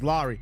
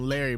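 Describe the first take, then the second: First: The first vowel sounds like 'law'. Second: The first vowel sounds like 'lair'. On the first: The speaker calls it right. "the correct pronunciation is Laurie" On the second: The speaker calls it wrong. "I like to call him Larry"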